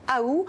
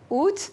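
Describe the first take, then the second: First: It starts with an a sound, no final t. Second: It starts with oo and ends with t. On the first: This was the older pronunciation. "on a longtemps prononcé le A initial, mais sans pour autant faire entendre le T final" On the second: This is the recent pronunciation. "on a récemment restitué le T final, mais sans garder le A initial"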